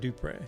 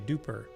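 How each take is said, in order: First: The name ends with a Spanish-style 'e' sound. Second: The name ends with an 'er' sound, like super. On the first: The speaker calls it right. "I've always said Dupre" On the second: The speaker calls it wrong. "Duper just sounds a bit weird"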